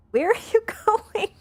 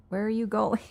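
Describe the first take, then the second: First: Much higher and louder, laughing through it; laughing high squeal. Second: Said in the usual way. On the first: Real, not acted. Streamer laughing at her cat pushing her, high squeal. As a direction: squeal it out while cracking up.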